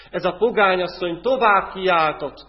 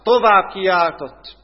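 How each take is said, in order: First: Said in the usual way. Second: Tovább kiáltott, slow and much louder; emphatic repeat. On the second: Real, not acted. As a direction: lean hard on tovább. Phrase repeated with more force.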